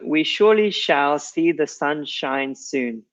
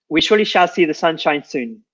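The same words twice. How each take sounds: First: It is spoken at a slow pace. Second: It is spoken at a quick pace. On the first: "I'm going to read it slowly" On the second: "then try quickly"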